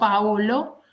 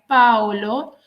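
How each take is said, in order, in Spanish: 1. El acento cae en la segunda sílaba. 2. El acento cae en la primera sílaba. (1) "y no Paolo" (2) "en italiano se pronuncia Paolo ... el acento va en la A"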